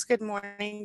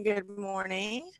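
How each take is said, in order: First: Said in the usual way. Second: Slow, stretched and soft; a slow softer second good morning; drawn-out good morning. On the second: Pretend. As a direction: let the greeting linger lazily. Greeting viewers, then stretches it.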